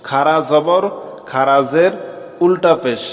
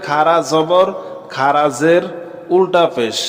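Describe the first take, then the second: The two takes are said the same way.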